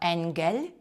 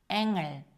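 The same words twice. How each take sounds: First: A separate g sound follows the n. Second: The ng is one nasal sound without g. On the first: The speaker calls it wrong. "Ми не кажемо «енгель»" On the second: The speaker calls it right. "«Г» не вимовляється"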